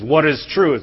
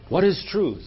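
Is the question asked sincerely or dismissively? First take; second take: dismissively; sincerely. First: It is asked in a dismissive, brushing-off way. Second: It is asked as a sincere, heartfelt question.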